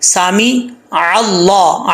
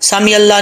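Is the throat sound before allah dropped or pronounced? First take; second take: pronounced; dropped. First: The throat consonant is clearly pronounced before allah. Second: The throat consonant is dropped and the words run together. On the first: The speaker calls it right. "आइन ज़बर लाम" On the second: The speaker calls it wrong. "ऐसा नहीं करना, सामी अल्लाह नहीं पढ़ना"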